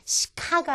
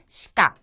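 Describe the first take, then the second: First: The k sound is strongly aspirated, like ka. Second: The k sound is tense, close to kka. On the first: The speaker calls it wrong. "시카가 아니라" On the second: The speaker calls it right. "첫음이 아닐 때는 까에 가깝게 발음한다"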